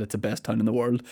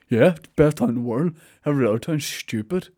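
First: Said in the usual way. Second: Put-on sulky little kid voice; childish. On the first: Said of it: "I realised when I said that". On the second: Mocking himself for bragging about his town, childish voice. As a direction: imitate a boastful child. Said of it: "I sounded like such a child".

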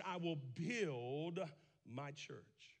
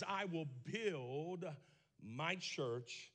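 First: "I will build" drawn out slowly, I lifted; emphatic phrase. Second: I will build, slow with I rising; emphatic phrase. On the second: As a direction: lean slowly on I will build. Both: Shown as a demonstration. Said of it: "The emphatic phrase".

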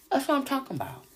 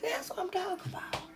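First: Said in the usual way. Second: Fast high whisper. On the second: Real, not acted. Host to viewers in a quick knowing whisper. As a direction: hiss it as a knowing aside.

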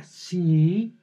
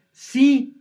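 First: A doubtful yes with a catch; yes, but with a condition hanging on it; hesitant yes. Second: A bright, loud, high yes; eager yes. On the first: Girlfriend answering a proposal, a grudging conditional yes. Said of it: "ah, caray, ¿qué es la condición?". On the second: Girlfriend answering a proposal, delighted and loud. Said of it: "Y ella les contesta". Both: Shown as a demonstration.

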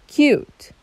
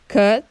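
First: "cute" with a long you sound, lifted high; long u demo. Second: "cut" with a short clipped uh; short u demo. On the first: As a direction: stretch "cute" into kyoot, pitched up. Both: Shown as a demonstration. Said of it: "They have almost the same letters".

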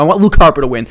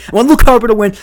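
First: Said in the usual way. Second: Insist: I want Luke Harper to win; louder and higher. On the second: Shown as a demonstration.

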